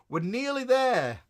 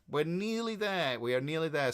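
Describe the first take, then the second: First: High, slow and loud sing-song; nearly there. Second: Said in the usual way. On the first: Real, not acted. Host promising viewers the new subscription, sung out high. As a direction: stretch it out, bright and lifted. Announcing progress to the chat.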